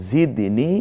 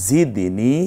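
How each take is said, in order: No difference in how they are said.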